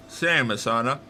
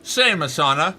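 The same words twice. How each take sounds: First: Said in the usual way. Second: Same punched out louder. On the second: Shown as a demonstration. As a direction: say Same, Asana loudly.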